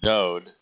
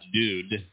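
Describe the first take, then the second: First: The middle vowel is an o sound. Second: The middle vowel is a u sound. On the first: The speaker calls it right. "Dode is Dode" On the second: The speaker calls it wrong. "not Dude"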